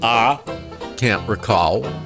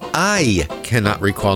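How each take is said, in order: First: It is said in a mocking Southern US accent. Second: It is said in a standard, non-Southern accent. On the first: The speaker calls it wrong. "not ah, can't recall" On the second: The speaker calls it right. "It is I cannot recall"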